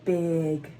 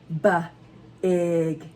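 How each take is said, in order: First: The sounds are said quickly as one word. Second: The sounds are said slowly and separately.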